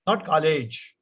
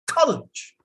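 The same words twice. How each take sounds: First: "college" evenly, no raised syllable; unstressed college. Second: "College" with COL raised high; stress on COL. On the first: Teacher to class: show the wrong even stress. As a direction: say "college" flat and level. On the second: Teacher to class: model the stressed first syllable. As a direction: push up the first part of "College". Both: Shown as a demonstration.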